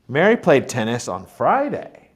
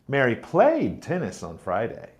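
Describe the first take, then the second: First: The stress is on Friday. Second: The stress is on played.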